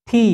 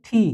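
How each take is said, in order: First: Said in the usual way. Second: টি with a breathy th on the t; aspirated tee. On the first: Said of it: "এটা কিন্তু টি না". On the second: Shown as a demonstration. Teacher showing the English T as aspirated টি. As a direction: puff air after the t in টি. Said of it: "এটা হচ্ছে টি".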